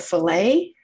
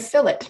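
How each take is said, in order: First: It is said with an American pronunciation. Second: It is said with a British pronunciation. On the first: "what we would call as Americans a fillet" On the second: "they would call it a fillet"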